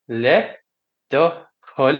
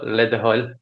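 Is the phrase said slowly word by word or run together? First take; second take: word by word; run together. First: The three words are said slowly and separately. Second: The words are run together at natural speed. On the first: "it's three words" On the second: "would be kind of a natural speed of it"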